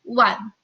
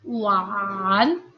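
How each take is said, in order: First: The tone only falls, without rising again. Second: The tone falls and then rises again. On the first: "dalam aturan perubahan nada kita bacanya menjadi" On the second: "harusnya adalah"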